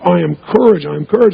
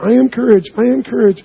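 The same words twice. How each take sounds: First: It is said strongly, with full conviction. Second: It is said weakly, without conviction.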